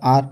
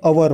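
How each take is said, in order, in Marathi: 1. हा एकाच अक्षराचा शब्द आहे, त्यात h नाही. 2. हा दोन अक्षरांचा शब्द आहे, त्यात h नाही. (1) "जसं ब्रिटिश किंवा अमेरिकन लोक म्हणतात आर" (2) "इंडियन लोक जे आहे ते अवर म्हणतात"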